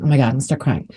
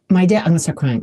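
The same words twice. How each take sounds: First: Choking up on "Oh my God"; fighting back tears over her dad; close to tears. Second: Said in the usual way. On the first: Real, not acted.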